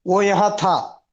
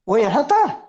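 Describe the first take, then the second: First: "वो यहाँ था." said flat with a falling end; falling statement tune on "था". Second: "वो यहाँ था?" with the voice rising on "था"; question tune. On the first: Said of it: "So if you say ... it's a statement". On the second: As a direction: lift the end of "था" into a question. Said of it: "And if you say ... that means, was he here?". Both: Shown as a demonstration.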